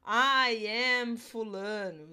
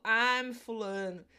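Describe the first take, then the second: First: "I am" spoken as two separate, careful words; "I am" given both words, slow; full form. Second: "I'm" run together as one quick syllable; "I'm" said as a single syllable; contracted form. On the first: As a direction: say "I am" slowly and fully. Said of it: "não preciso falar". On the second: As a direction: clip it to "I'm". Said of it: "eu só falo". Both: Shown as a demonstration.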